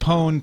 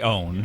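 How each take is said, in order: First: The word starts with an audible P sound. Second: The word starts with a vowel, no P. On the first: "I like to pronounce it pwn to uh, to make it clear in audio that I'm using the P" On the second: "You could just say own"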